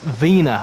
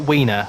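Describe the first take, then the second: First: The name begins with a V sound. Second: The name begins with a W sound. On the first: The speaker calls it right. "I know Matt pronounced it with a V" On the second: The speaker calls it wrong. "It's definitely not Wiener"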